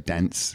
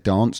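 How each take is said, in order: First: It is said in an American accent. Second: It is said in a London accent. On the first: "Americans say dance" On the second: "In London, we say dance"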